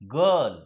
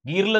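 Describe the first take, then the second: First: The vowel is a short 'uh' sound. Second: The vowel is an 'ee' sound. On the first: The speaker calls it right. "आयचा उच्चार ई न होता आई न होता अ होतो" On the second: The speaker calls it wrong. "गिरलं झालं का नाही"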